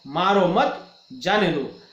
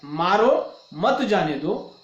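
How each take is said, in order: First: Slow मारो मत as one phrase, break, जाने दो; pause after मत. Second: Slow मारो, break, then मत जाने दो as one phrase; pause after मारो. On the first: Teacher giving the second sentence, pause after मत. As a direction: split it straight after मत. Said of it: "और दूसरा वाक्य है". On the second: Teacher giving the first of two sentences, pause after मारो. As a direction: split it straight after मारो. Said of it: "अर्थात ये दो वाक्य है". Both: Shown as a demonstration.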